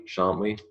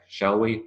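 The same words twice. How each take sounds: First: "Shan't we" with shan't as one clipped syllable; contracted tag. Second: Said in the usual way. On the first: Shown as a demonstration. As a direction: say "Shan't" short, then a light "we". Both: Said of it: "Shall we and shan't we?".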